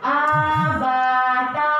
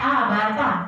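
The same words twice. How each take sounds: First: The vowels are drawn out long. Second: The vowels are kept short. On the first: The speaker calls it wrong. "itu udah dua harokat loh" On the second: The speaker calls it right.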